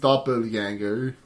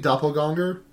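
First: The word is said slurred, as if drunk. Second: The word is said plainly, without a slurred vowel. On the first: This is the proper German way to say it. "just kind of sound like you're slurring your speech, like you're a little bit drunk" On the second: This is how it would sound without the umlaut. "if it didn't have the umlaut"

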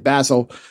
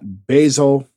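First: The word has a British pronunciation. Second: The word has an American pronunciation.

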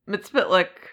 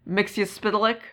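First: Fewer of the letters are sounded out. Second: More of the letters are sounded out. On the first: "I heard it said Mxyzptlk by a few people" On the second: "basically the same, but with, like, pronouncing more of the letters"

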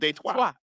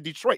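First: The name is said with a French pronunciation. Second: The name is said with an anglicized pronunciation. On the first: This is the original French form. "instead of Detroit" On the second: This is how locals say it. "we don't use the French pronunciations. That's why we call the city Detroit"

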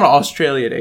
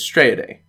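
First: The first word is said with all its syllables. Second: The first word is clipped to fewer syllables. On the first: The speaker calls it wrong. "It's not Australia Day" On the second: The speaker calls it right. "Less syllables"

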